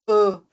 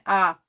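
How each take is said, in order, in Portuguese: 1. A vogal é fechada e nasal. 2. A vogal é aberta e oral. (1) "a gente tá falando ã" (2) "a gente fala elas de forma aberta"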